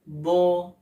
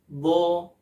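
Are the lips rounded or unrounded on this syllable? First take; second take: unrounded; unrounded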